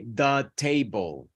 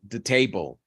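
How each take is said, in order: First: Every sound in the phrase is fully pronounced. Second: A sound in the phrase is dropped. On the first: The speaker calls it wrong. "Don't say the table" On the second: The speaker calls it right. "deletion, very important. Say the table"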